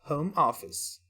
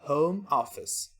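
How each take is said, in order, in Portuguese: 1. É pronunciado com sons do inglês. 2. É pronunciado com sons do inglês.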